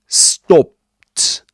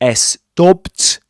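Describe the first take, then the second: First: No extra vowel is added before the s. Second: An extra vowel is added before the s. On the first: The speaker calls it right. "but stopped" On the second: The speaker calls it wrong. "You don't have to add um, a vowel sound, ... before the S sound. It's not stopped"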